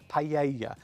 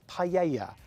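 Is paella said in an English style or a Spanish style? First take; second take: Spanish; Spanish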